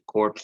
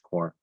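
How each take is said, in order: First: The word ends with audible p and s sounds. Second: The word ends without any p or s sounds. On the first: The speaker calls it wrong. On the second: The speaker calls it right.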